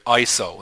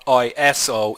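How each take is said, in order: First: It is said as a single word. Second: It is said as three separate letters. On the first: It comes from a Greek word meaning equal. The speaker calls it right. "It's a word" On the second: It is treated as an acronym. The speaker calls it wrong. "not an acronym"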